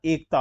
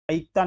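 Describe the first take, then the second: First: एकता as "ekta"; pure e. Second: एकता as "aikta"; wrong ai vowel. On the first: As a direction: open एकता on a plain long "e". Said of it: "एकता होता है". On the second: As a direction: open एकता on a gliding "ai". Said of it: "एकता नहीं होता". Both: Shown as a demonstration.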